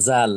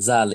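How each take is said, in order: The two takes are said the same way.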